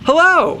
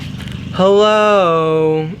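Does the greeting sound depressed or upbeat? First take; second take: upbeat; depressed. First: The greeting sounds happy and upbeat. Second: The greeting sounds gloomy and depressed. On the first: The person seems glad to take the call. The speaker calls it right. "Make sure you're on closer to the second one" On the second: The person seems unhappy to take the call. The speaker calls it wrong. "oh, shoot me now"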